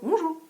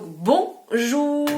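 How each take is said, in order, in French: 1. Le mot est dit vite, d'un ton désinvolte. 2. Le mot est dit lentement et posément. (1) "dit comme ça, on va pas t'entendre" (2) "ça posait et ça laissait le temps aux gens de t'entendre"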